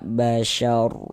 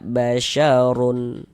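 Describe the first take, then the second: First: The word ends on a bare 'r' sound. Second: The word ends with an added 'un' sound. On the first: The reader stops at the end of the verse. The speaker calls it right. "kita baca basyar" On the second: The reader carries on without stopping. The speaker calls it wrong. "Jangan dibaca basyarun"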